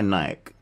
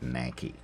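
First: The brand name is said the non-American way. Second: The brand name is said the American way.

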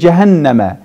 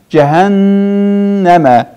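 First: The nasal n sound is cut short. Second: The nasal n sound is held long. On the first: The speaker calls it wrong. "Demirik cəhənnəmə" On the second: The speaker calls it right. "nunun üzərində qalırıq"

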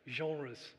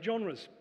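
First: It is said with a French accent. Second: It is said with a plain English accent.

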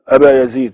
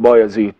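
First: The name starts with a vowel before the b. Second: The name starts directly with the b sound. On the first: This is the original Arabic form. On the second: This is the Persian form of the name.

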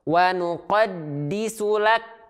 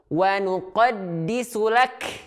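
First: The final k has no puff of breath. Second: The final k has an exaggerated puff of breath. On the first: "dia tidak mengalirkan nafas atau tidak memercikan nafas sehingga hilang sifat hamsnya" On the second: "justru dia berlebihan"

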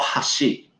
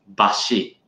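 First: The word starts with an h sound. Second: The word starts with a b sound. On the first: This is the word for chopsticks on its own. "it's called hashi" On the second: This is the form used in compound chopstick terms. "It's pronounced as bashi"

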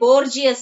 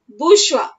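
First: The word is read the way it is spelled. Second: The word has its standard pronunciation. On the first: The speaker calls it wrong. "though it look like Borgias" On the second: The speaker calls it right. "actual pronunciation is bourgeois"

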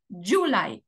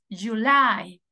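First: The stress falls on the first syllable. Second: The stress falls on the second syllable. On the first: The speaker calls it wrong. "ni tampoco July, no" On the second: The speaker calls it right. "La sílaba tónica es la segunda"

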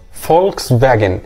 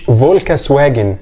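First: The second word starts with a V sound. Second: The second word starts with a W sound. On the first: The speaker calls it right. "الدبليو بيتنطق زي حرف الفي" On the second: The speaker calls it wrong. "مش فولكس واجن"

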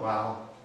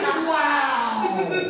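First: It is said quietly, without force. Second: It is said loudly, with energy.

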